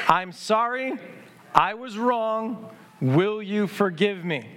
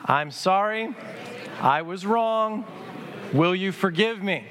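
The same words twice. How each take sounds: First: Slow, deliberate practice of the apology words; slow practice recital. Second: Slow, deliberate apology to a neighbour; slow sincere apology. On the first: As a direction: say "I was wrong" slowly, leading the congregation. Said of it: "Say them with me". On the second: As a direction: say "I was wrong" slowly, eye to eye. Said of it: "look them in the eye and say these words to them". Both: Shown as a demonstration.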